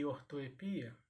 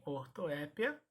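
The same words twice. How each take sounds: First: "ortoepia" said or-to-e-PI-a; stressed PI in "ortoepia". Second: "ortoépia" said or-to-É-pia; stress on É. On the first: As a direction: hit PI in "ortoepia". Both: Shown as a demonstration. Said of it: "eu posso pronunciar também".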